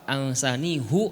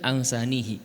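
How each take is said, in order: First: The last syllable ends with an 'oo' vowel. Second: The last syllable ends with an 'ee' vowel. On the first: This is the reading of only one of the ten reciters. "Satu-satunya yang membaca dari sepuluh kiroat ansanihu adalah hanya Imam Hafiz" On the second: This is the reading of all the other reciters. "yang lainnya baca ansanihi"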